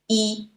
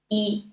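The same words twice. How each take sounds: The two takes are said the same way.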